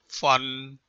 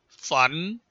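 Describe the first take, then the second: First: The pitch stays low and level. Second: The pitch rises from mid to high.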